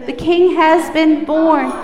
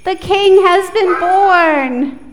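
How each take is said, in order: First: Loud group repeat; loud echo. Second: Loud, high, slow proclamation; loud call-out; really loud. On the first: Real, not acted. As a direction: shout it back together. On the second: Shown as a demonstration. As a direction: proclaim it for them to echo. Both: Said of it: "repeat after me".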